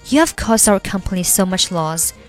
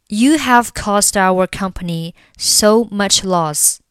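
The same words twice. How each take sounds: First: It is said fast. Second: It is said slowly.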